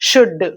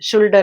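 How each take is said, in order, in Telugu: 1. ఈ పదాన్ని L ధ్వని లేకుండా ఉచ్చరిస్తారు. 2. ఈ పదాన్ని L ధ్వనితో ఉచ్చరిస్తారు. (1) "సైలెంట్ లెటర్స్" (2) "షుల్డ్ అని వింటూ ఉంటాం మనం"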